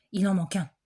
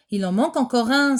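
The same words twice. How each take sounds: First: Said in the usual way. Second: Louder alarmed cry; exclaiming. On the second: Acted. Teacher counting pupils cries out, louder. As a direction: call out that one is missing again. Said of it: "s'écrie-t-elle".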